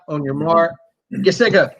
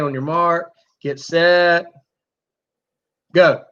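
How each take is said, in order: First: The words are rushed together quickly. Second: The words have long gaps between them. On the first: "It's not ... You can't rush it that much" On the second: "allowing that time frame to get longer and longer"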